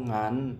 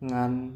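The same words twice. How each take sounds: The two takes are said the same way.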